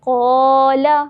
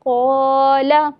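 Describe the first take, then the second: No difference in how they are said.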